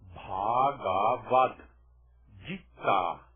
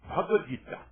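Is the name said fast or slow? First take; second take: slow; fast. First: The name is said slowly, syllable by syllable. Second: The name is said quickly, run together. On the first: The speaker calls it wrong. "Se você quiser ler devagar" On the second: The speaker calls it right. "Todos dizem Bhagavad Gita"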